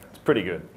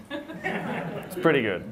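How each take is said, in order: First: Said in the usual way. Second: "It's pretty good" slowed right down through a laugh. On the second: Shown as a demonstration. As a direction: drawl it out while laughing.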